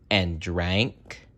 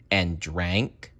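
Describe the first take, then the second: No difference in how they are said.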